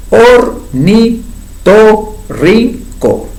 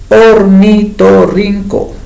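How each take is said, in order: First: Ornitorrinco broken into five slow syllables, or-ni-to-rrin-co; very slow syllabified. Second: Ornitorrinco said slowly and clearly; slow clear model word. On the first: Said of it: "Cinco sílabas". (Ornitorrinco silabeado muy despacio) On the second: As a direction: lay out ornitorrinco for the class to hear. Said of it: "¿Cuántas sílabas formaría esta palabra?". (ornitorrinco pronunciado despacio y claro) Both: Shown as a demonstration.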